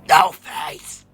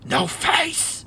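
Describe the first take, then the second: First: It is shouted at full volume. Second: It is whispered quietly.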